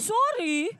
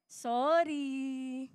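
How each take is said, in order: First: The apology sounds grudging and angry. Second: The apology sounds forced and insincere. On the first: The apology is given resentfully. "Wag ganyan, hindi galit" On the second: The apology is not really meant. "Plastic pa din, hindi pa rin masabi"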